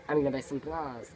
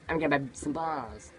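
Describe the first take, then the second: Both takes have the same delivery.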